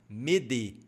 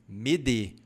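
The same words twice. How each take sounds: The two takes are said the same way.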